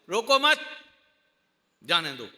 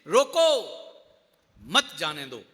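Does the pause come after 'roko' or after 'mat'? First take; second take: after mat; after roko. First: There is a pause right after 'mat'. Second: There is a pause right after 'roko'.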